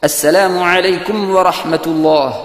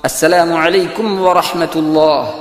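The two takes are said the same way.

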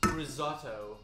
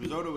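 First: It is said in a British-sounding accent. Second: It is said in a North American accent.

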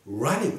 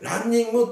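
First: It is said with English-style sounds and rhythm. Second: It is said with Japanese katakana-style syllables. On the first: The speaker calls it right. "すべてrunning ですね。" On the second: The speaker calls it wrong. "ランニングって発音する人がいるんですけど、違います。"

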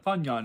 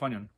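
First: The word is said slowly. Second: The word is said fast.

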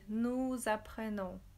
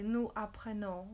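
First: The s of nous links as a z. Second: The s of nous is not sounded. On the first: The speaker calls it right. "we say" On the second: The speaker calls it wrong. "We don't say"

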